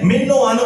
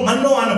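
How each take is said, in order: First: The first vowel sounds like 'i'. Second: The first vowel sounds like 'a'. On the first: The speaker calls it right. "मिन्नो अन को मन्नो अन पढ़ते हैं" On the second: The speaker calls it wrong. "मिन्नो अन को मन्नो अन पढ़ते हैं"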